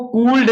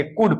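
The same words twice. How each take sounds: First: कूल्ड with the l sounded before d; कूल्ड, a spelling reading with an audible ल; L pronounced wrongly. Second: कुड with no l before the d; कुड, going straight from the vowel to d; silent L demo. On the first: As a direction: say could as कूल्ड, letting the l be heard. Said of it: "इसको कूल्ड नहीं पढ़ेंगे". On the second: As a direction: say could as कुड, dropping the l. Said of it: "कुड पढ़ेंगे". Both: Shown as a demonstration.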